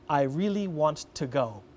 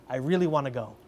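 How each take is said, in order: First: Each word is said separately, without linking. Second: The words run together in connected speech. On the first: The speaker calls it wrong. "she said" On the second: The speaker calls it right. "that's an example of kind of connecting the words together"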